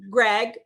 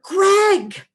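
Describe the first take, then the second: First: It is called in a repetitive, nagging tone. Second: It is called in a delighted, excited tone.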